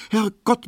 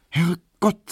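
First: Very high, alarmed Herrgott; sharp alarm. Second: High, startled Herrgott; mild surprise. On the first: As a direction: gasp out "Herrgott" in a panic. Emma alarmed at the clock. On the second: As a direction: exclaim at the late hour. Emma startled by the time. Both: Acted.

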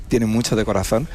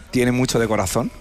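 The two takes are said the same way.

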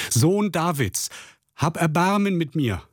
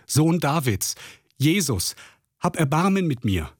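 First: Louder pleading cry. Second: A blind beggar calling out over the crowd, pitched up; calling out for mercy from the roadside, pitch raised; pleading cry. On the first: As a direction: stretch each word out, pitched up high. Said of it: "schrie noch viel lauter". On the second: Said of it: "rief er laut". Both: Acted.

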